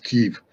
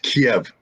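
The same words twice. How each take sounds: First: The name is said the Ukrainian way. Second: The name is said the old Soviet Russian way. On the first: "If you're uh, Ukrainian, it's Kiev" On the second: "I'm an old school Soviet guy. It's Kiev"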